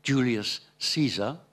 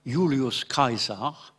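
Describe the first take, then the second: First: Julius Caesar as "Joolius Seezer"; English-sounding Julius Caesar; English pronunciation. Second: Julius Caesar as "Yulius Kaisar"; Latin-style Julius Caesar, "Yulius Kaisar"; Roman pronunciation. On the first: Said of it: "les Anglais disent". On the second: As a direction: say Julius Caesar in classical Latin, hard k and y sound. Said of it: "les Romains disaient". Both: Shown as a demonstration.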